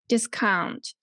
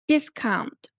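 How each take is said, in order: First: The stress is on the second syllable. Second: The stress is on the first syllable. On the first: It is used as a verb. "verbs like discount" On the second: It is used as a noun. "So nouns"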